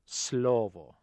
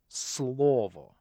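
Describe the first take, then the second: First: The L is softened and sounds British. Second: The L is hard, made deep in the throat. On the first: The speaker calls it wrong. "extremely un-Russian, to the point of being comical" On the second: The speaker calls it right. "the hard consonant L"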